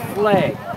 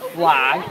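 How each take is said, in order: First: The vowel sounds like 'egg'. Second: The vowel does not sound like 'egg'. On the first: "It is like an egg with an F L at the start" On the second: "It is not a flag"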